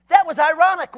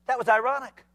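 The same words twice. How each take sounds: First: "That" hit higher and louder; punched-up restatement of "That was ironic"; emphatic repeat. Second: Said in the usual way. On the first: Shown as a demonstration.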